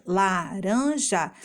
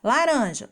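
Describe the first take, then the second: First: LARANJA slowly split into la-ran-ja; syllable by syllable. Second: Said in the usual way. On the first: Shown as a demonstration. Teacher giving children a clue, slow la-ran-ja for LARANJA. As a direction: stretch out each syllable of LARANJA. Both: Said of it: "as sílabas são os pedacinhos".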